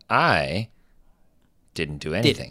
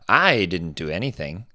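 First: A short pause breaks up the sentence. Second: The sentence runs on without a pause. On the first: The speaker calls it right. "you add that exactly. tone to it, you leave a space" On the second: The speaker calls it wrong. "he wouldn't say"

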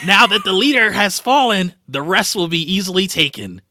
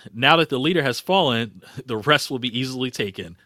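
First: It is read in a put-on character voice. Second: It is read in a plain, ordinary voice. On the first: The speaker calls it right. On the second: The speaker calls it wrong.

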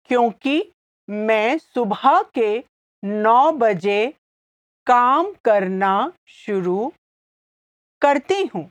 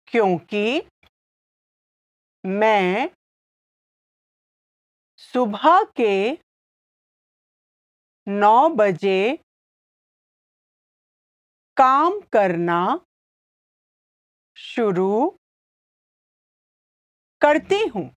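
First: It is said at normal speed. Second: It is said slowly.

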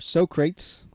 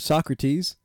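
First: The name is pronounced the comic movie way. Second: The name is pronounced the usual standard way.

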